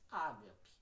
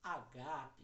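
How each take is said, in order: First: The stress is on the first syllable. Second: The stress is on the second syllable. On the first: The speaker calls it wrong. "acabou um pouco popularizando essa forma de falar" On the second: The speaker calls it right. "que seria a sonorização correta no grego"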